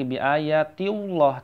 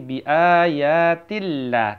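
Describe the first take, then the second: First: The L in Allah is thick and heavy. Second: The L in Allah is thin and light. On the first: The speaker calls it wrong. "maka tidak lagi bi ayatillah" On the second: The speaker calls it right. "tipis ya"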